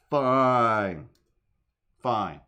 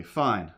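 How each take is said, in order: First: Loud exasperated fine. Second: Said in the usual way. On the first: Shown as a demonstration. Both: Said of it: "repeated Fine takes".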